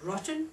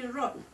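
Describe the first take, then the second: First: The middle t is clearly pronounced. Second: The middle t is replaced by a glottal stop. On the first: The speaker calls it right. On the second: The speaker calls it wrong.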